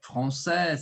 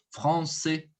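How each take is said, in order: First: Parisian FRANÇAIS with open final "eh"; Parisian accent. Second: Southern FRANÇAIS with closed final "ay"; southern French accent. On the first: Teacher demonstrates northern speech, open Parisian accent. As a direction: say FRANÇAIS the Parisian way, ending "seh". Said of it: "l'accent parisien". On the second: Teacher shows how the south speaks, closed southern accent. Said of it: "trabalha ele um pouquinho mais fechado". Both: Shown as a demonstration.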